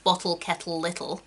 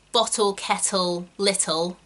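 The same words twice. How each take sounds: First: Bottle, kettle, little with a neat RP final L; RP pronunciation. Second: Bottle, kettle, little with a looser final syllable; everyday pronunciation. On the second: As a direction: say bottle, kettle, little in your own non-RP way. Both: Shown as a demonstration. Demonstrates two pronunciations of same words.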